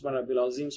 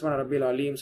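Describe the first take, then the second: First: The last word has a plain z sound. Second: The last word has an l sound. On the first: "Urdu பேசக்கூடிய மக்கள் கவனம் இல்லாம சொல்லுவாங்க" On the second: "பெரும்பாலும் தமிழ் பேசக்கூடிய மக்கள் இல்ல தவறு செய்யக்கூடிய"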